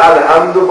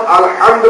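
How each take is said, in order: First: الحمد with a light h in place of ح; mistaken light he. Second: الحمد with a heavy throaty ح; correct heavy he. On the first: Teacher showing students the mistake in الحمد, light plain h. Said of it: "الحمد کے بجائے الحمد پڑھ لیں". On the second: Teacher showing students the correct الحمد, heavy throaty ح. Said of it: "ہے موٹی آواز میں". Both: Shown as a demonstration.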